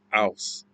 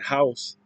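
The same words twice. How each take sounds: First: The word begins without any H sound. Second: The word begins with a clear H sound. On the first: "it would be kind of sound like house" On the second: "Instead of saying house"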